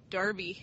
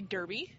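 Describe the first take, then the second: First: "Derby" said DAR-bee, first vowel as in car; alternative pronunciation. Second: "Derby" said DUR-bee, first vowel as in her; spelling pronunciation. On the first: Quiz player wondering about a British place, "Derby" said DAR-bee. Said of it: "would it be". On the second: Quiz player settling on a British place name, "Derby" said DUR-bee. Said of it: "I would think it'd be". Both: Shown as a demonstration.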